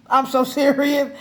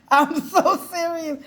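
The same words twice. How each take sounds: First: Said in the usual way. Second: High, laughing through the words. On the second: Real, not acted. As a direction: crack up as you insist. Laughing repeat.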